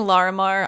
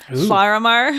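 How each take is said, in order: First: The first L is an ordinary English L. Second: The first L is a hissing Welsh double L. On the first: "I've been saying Larimar" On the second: "pronounce it in sort of a Welsh fashion"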